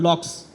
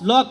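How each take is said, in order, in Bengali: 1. নামটি ks শব্দে শেষ হয়। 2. নামটি সাধারণ k শব্দে শেষ হয়।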